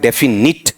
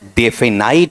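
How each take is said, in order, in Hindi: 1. आखिरी अक्षर 'nit' जैसा सुनाई देता है। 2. आखिरी अक्षर 'night' जैसा सुनाई देता है। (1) "वो भी क्या है, गलत" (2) "वो भी क्या है, गलत"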